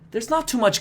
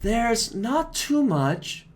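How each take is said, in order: First: The phrase is said quickly and smoothly. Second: The phrase is said slowly and hesitantly. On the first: The speaker has found the words. "then she speeds up again" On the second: The speaker is still thinking. "she's a little bit slower there"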